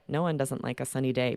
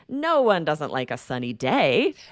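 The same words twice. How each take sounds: First: The sentence is said with flat intonation. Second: The sentence is said with expressive intonation. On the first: It sounds confusing, as if something else was meant. The speaker calls it wrong. "I can't be like" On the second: Everyone likes a sunny day. The speaker calls it right. "when we use that intonation"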